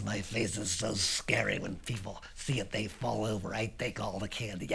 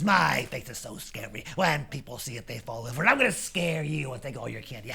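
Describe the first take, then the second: First: Low, understated boast; quietly sure of himself; matter-of-fact kid. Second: Lightly voiced bully's brag; mildly menacing big kid; boastful teenager. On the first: Acted. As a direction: confide it calmly, pitched down. Lance explains his scary face. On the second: Teenager threatens to scare Lance.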